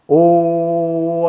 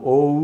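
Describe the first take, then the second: First: ఓ held long as one unchanging "o", no glide; long monophthong "ooo" vowel on ఓ, steady pitch; pure steady O. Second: ఓ gliding from "o" into "oo". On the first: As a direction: hold ఓ without moving the lips. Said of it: "ఓ అన్నప్పుడు మూతి కదిలించకూడదు". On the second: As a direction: move the lips through ఓ, ending rounded as "oh-oo". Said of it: "ఓ అన్నప్పుడు మూతి కదలాలి". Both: Shown as a demonstration.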